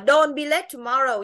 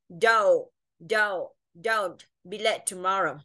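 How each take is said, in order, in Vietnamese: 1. Don't có nguyên âm 'o' phẳng. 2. Don't có nguyên âm 'oh' trượt. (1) "mình không đọc là don't be late tomorrow nhé" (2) "nó sẽ phiên âm là oh"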